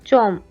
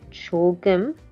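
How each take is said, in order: First: The word is shortened to a single syllable. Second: The word is said in full with two syllables. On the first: It is casual everyday speech. "in Korean people's casual everyday speech, they say 좀" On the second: It is the proper, standard form. "is a proper way of saying it"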